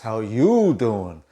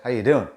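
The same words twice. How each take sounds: First: The vowels are stretched with lively emotion. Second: The vowels are short and flat, without emotion.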